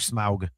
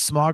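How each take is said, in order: First: The name is said the British way. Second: The name is said the non-British way.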